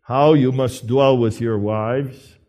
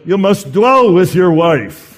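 First: "how" carries the weight, the rest eases off; stress on HOW. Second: "dwell" punched high and loud; stress on DWELL. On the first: Preacher conceding the text's emphasis to husbands, stress on "how". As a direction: lean on "how", keep "dwell" unforced. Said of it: "I know the text emphasizes". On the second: Preacher insisting to husbands on the first command, forceful "dwell". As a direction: hit "dwell" hard, louder and higher, then fall. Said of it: "but it first of all tells you". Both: Shown as a demonstration.

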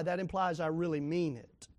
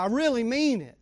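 First: Said in the usual way. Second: "I really mean it" pressed hard, louder; emphasis on "mean" in "I really mean it"; emphatic. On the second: Shown as a demonstration. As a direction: lean on "really mean it" to show sincerity. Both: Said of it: "I'm giving emphasis now".

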